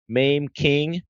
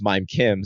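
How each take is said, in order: First: The first name has the vowel of 'maim'. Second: The first name has the vowel of 'mime'. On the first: The speaker calls it wrong. "they're mispronouncing my name" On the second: The speaker calls it right. "my name is Mime Kim"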